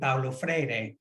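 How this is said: The name is said with a Portuguese accent. "said in uh, Portuguese and Spanish accent"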